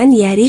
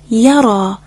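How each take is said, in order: First: The word ends with an 'i' vowel. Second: The word ends with a long 'a' vowel. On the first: The speaker calls it wrong. "اشتباهاً یری خونده نشه" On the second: The speaker calls it right. "در اصل این یا پایه الف مدی هست"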